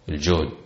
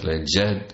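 First: The first vowel is a rounded 'u' sound. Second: The first vowel is an open 'a' sound. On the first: It means capacity or ability. "بالضم الطاقة" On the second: It means hardship or strain. "وبالفتح الجهد المشقة"

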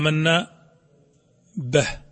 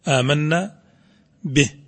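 First: The vowel on the ba leans toward a. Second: The vowel on the ba is a clear i. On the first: The speaker calls it wrong. "تأثير اللهجة على النطق" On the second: The speaker calls it right. "على قدر الكسرة تكون آمنا به"

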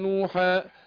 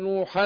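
First: The word ends on a long a vowel. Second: The word ends with a clear n sound. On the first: The reciter pauses on this word. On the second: The reciter joins this word to the next.

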